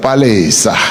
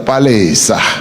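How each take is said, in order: First: The middle vowel sounds like 'eh'. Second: The same.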